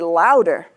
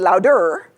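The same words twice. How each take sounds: First: The first syllable is much longer and louder. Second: Both syllables get roughly equal length and loudness. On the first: The speaker calls it right. "I say louder than the unstressed syllable" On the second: The speaker calls it wrong. "I don't say louder"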